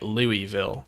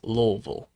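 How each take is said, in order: First: Louisville is said the way outsiders say it. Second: Louisville is said the way locals say it. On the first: The speaker calls it wrong. "people even here down in the South who pronounce it" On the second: The speaker calls it right. "when it's"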